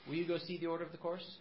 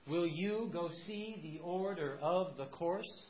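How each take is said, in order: First: The stress follows ordinary speech without a steady beat. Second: Every second syllable is stressed in a steady beat. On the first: "that's very different from" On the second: "in iambic pentameter, you would read it"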